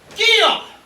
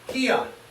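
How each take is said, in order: First: It is shouted strongly, with punch. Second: It is said weakly, without punch.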